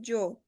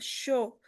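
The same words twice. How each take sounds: First: It is said with a Mexican-style Spanish pronunciation. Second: It is said with an Argentine-style Spanish pronunciation. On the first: "mexicanos, eh, peruanos, chilenos, bolivianos, vocês vão escutar a gente falar yo" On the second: "vocês podem escutar argentinos e uruguaios falar yo"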